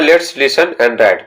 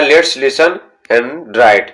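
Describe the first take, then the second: First: Each word spaced out slowly; very slow dictation. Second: Said in the usual way. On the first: Shown as a demonstration. Teacher reading the instruction aloud to students, very slow. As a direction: read it slowly for the class to follow. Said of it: "तो बोला जा रहा है".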